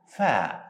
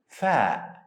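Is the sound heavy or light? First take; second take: light; light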